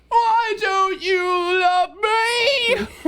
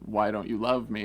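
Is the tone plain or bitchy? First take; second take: bitchy; plain. First: It is said in a bitchy, whiny tone. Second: It is said in a plain, neutral tone.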